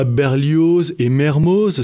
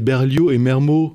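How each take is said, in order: First: The final z sounds are pronounced. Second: The final z sounds are silent. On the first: This is how outsiders say it. The speaker calls it wrong. "c'est pas Berlioz et Mermoz" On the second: This is how locals say it. The speaker calls it right. "c'est Berlioz et Mermo"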